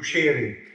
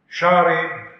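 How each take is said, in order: First: The long vowel leans toward 'ee', Aleppo-Lebanese style. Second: The long vowel is a plain open 'aa'.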